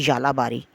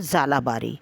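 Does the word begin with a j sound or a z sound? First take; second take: j sound; z sound. First: The word begins with a j sound. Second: The word begins with a z sound. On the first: "in proper Urdu, when we call it, it is J" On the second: "to make you understand, I'm saying it is Z"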